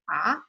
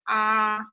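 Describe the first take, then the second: First: The pitch rises like a question. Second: The pitch stays high and level. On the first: "Second one is like what" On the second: "First tone is high and flat"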